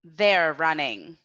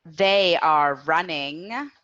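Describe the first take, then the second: First: "They're running" with "They're" as one syllable, falling end; contracted form for repetition. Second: Slow "They are running", "They are" as two words, rising end; full form for repetition. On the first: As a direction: model the contraction "They're running" slowly for learners. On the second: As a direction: model "They are running" uncontracted and slowly for learners. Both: Shown as a demonstration. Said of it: "Repeat after me".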